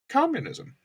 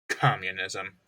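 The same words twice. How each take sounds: First: It is said warmly, with admiration. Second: It is said plainly, with no special feeling.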